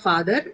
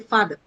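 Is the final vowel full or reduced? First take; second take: full; reduced. First: The final vowel is a full vowel. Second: The final vowel is short and reduced. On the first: The speaker calls it wrong. "it's not father" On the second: The speaker calls it right. "it's actually father"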